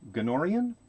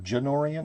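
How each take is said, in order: First: The name begins with a hard G sound. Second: The name begins with a J sound. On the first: The speaker calls it right. "It's a hard G" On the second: The speaker calls it wrong. "Janorian is a soft G"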